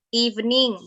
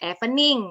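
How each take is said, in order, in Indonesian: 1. Vokal pertama terdengar seperti 'ee'. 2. Vokal pertama terdengar seperti 'eh'. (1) "huruf E ini dibacanya I" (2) "bukan evening ya"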